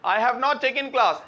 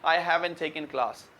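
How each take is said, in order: First: Have not is said as two full words. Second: Have not merges into haven't, final t silent.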